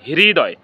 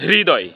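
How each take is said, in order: First: The word starts with an h before r. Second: The word starts with an h before r.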